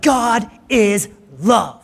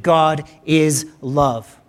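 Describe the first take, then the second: First: God is love stretched out high, half-hearted yell; understated De Niro-style cry; higher, slow mock yell. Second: Each word slowed and weighted; solemn, drawn-out declaration; slow solemn statement. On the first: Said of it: "he yells out". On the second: Shown as a demonstration. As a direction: let God is love land slowly, word by word. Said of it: "is this statement".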